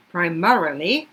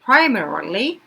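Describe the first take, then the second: First: "primarily" with MA carrying the stress; second-syllable stress. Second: "primarily" with a loud PRI; first-syllable stress. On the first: Teacher comparing two readings, "primarily" stressed on MA. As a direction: hit MA, pri-MA-rily, in "primarily". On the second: Teacher comparing two readings, "primarily" stressed on PRI. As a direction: punch PRI at the start of "primarily". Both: Shown as a demonstration. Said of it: "두 가지 다 괜찮으니까".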